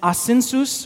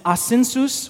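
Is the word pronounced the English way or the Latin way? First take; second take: Latin; Latin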